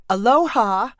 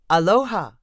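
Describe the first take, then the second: First: Higher, louder bright hello; cheerful greeting. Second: Said in the usual way. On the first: Acted. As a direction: greet eagerly in Hawaiian. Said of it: "Dawn greeted the woman". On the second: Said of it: "the woman said in return".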